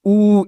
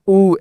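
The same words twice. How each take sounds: First: ऊ drawn out and held; teacher shows long ऊ: pull ऊ out long. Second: ऊ said short, a little slowly; teacher shows short ऊ: keep ऊ brief. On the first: Teacher demonstrating long ऊ to students, ऊ stretched. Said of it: "थोड़ा आपको जो है ना खींच कर". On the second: Teacher demonstrating short ऊ to students, ऊ kept brief. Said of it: "इस तरह slowly". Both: Shown as a demonstration.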